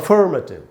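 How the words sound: It is said with a curled r sound. "तो वो American उच्चारण है"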